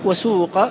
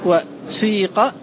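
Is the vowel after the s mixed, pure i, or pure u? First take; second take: pure u; mixed. First: The vowel after the s is a pure u. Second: The vowel after the s mixes i with u. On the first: "بإخلاص الضم" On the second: "بالإشمام، تخلط الكسرة بشيء من صوت الضمة"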